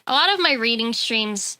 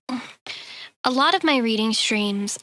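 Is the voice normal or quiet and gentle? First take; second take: normal; quiet and gentle. First: It is said in a normal speaking voice. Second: It is said in a calm, quiet, gentle voice.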